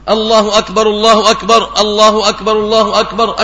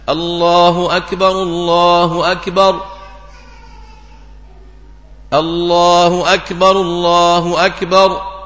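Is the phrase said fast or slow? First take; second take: fast; slow. First: The phrase is rushed out very quickly. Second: The phrase is drawn out slowly. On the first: The speaker calls it wrong. "بيبقى إيه طلق سريع خالص" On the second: The speaker calls it right. "في السنة الأذان إذا أذنت فترسل"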